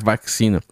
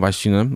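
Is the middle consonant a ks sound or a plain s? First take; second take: ks sound; plain s. First: The middle consonant is a ks sound. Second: The middle consonant is a plain s sound. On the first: The speaker calls it right. "mas vacina. É que é com X" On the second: The speaker calls it wrong. "não vacina"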